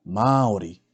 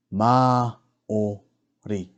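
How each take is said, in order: First: Said in the usual way. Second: "Māori" slowly split as Mā, o, ri; slow teaching breakdown of "Māori"; broken into syllables. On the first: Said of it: "pronounce these words correctly". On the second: Shown as a demonstration. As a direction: sound out each part of "Māori" with gaps. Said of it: "break down the words first".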